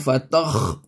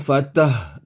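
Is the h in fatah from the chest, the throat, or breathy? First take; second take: throat; chest. First: The h is a harsh sound in the throat. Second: The h comes from deep in the chest. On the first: "Itu ha halkum" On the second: "Itu ha dada"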